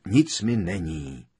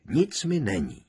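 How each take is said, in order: First: Slow, squeezed-out reassurance; grunted out. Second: Higher, firmer repeat of the reassurance; reassuring. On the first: Ron to Hermiona as she squeezes him, grunting. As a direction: grunt it out from inside a tight hug. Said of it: "vyhekl Ron". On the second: Ron patting her back, reassuring. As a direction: say it again more lightly, pitch lifted. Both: A narrator's reading.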